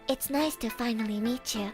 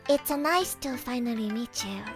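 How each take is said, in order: First: It is said in her regular accent. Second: It is said with a Japanese accent.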